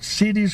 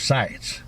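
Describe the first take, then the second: First: The word has two syllables, like 'cities'. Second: The word has one syllable, like 'sites'. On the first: One person's way of saying it. "she called it cities tag" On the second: The way people locally say it. "I've heard every people around here call it sites tag"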